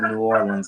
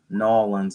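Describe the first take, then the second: First: The city name is said with all syllables. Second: The city name is squeezed into fewer syllables. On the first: This is how the speaker says it. "I would say it like this" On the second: This is how some other people say it. "some people say"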